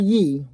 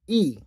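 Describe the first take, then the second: First: It begins with a consonant Y sound. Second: It begins with a plain ee vowel. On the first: The speaker calls it wrong. "not Yi with the Y" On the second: The speaker calls it right. "It's E E"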